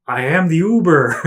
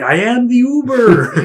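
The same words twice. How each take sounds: First: Announcing driver. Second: High, slow booming announcement; mock-grand announcement of being the Uber; hammed-up driver. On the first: Retold or imitated. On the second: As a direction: declare it grandly and slowly. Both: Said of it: "he was like".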